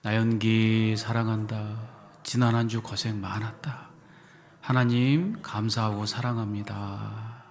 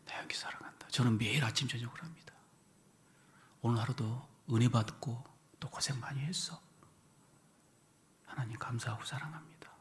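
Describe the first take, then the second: First: Louder, slow and stretched; loud slow affirmation. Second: Hushed, whispered to the mirror; private whisper. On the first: Eyes closed with the congregation, loud slow affirmation. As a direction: proclaim love to yourself, unhurried. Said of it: "자, 시작". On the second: Alone at the bathroom mirror, whispered affirmation. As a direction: murmur it privately so no one hears. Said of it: "거울 보면서 화장실에서". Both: Shown as a demonstration.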